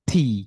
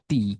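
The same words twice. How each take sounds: First: The T is released with a puff of air. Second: The T is released with no puff of air. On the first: The speaker calls it right. "টি বাতাস একটু বাইর করার চেষ্টা করবেন" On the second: The speaker calls it wrong. "Not টি"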